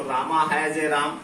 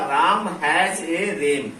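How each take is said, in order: First: रामा said with a long final aa, राम with a full aa vowel; wrong reading. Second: राम with a short final a, रेम with an e vowel like English ram, said slowly; careful teacher demo of the right pronunciation; correct reading, slow. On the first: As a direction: read राम as रामा and रेम as राम, deliberately wrong. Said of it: "गलत तरीके से पढ़ेंगे". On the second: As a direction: read राम has a रेम slowly and clearly. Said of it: "इसका pronunciation ये है". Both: Shown as a demonstration.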